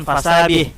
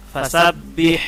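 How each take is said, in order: First: "fasabih" with one quick b, no hold; single b. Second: "Fasabbih" with the b pressed and held; doubled b. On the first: Teacher showing the mistake, undoubled b in "fasabih". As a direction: glide through the b of "fasabih" without doubling it. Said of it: "jangan fasabih". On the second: Teacher showing the doubled letter, held b in "Fasabbih". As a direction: hold the double b in "Fasabbih" for two beats. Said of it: "Huruf bertasydid dibaca rangkap atau ditekan". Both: Shown as a demonstration.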